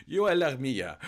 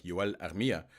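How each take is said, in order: First: Yoel Armia, loud and higher in a hammed-up Finnish accent; exaggerated Finnish accent, louder and higher; classic Finnish accent. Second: Yoel Armia with a hint of a Finnish accent; understated Finnish accent on the name; light Finnish accent. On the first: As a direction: belt out the name Yoel Armia like a proud Finnish commentator. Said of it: "classic Finnish accent". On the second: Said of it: "I don't know why I added that little accent".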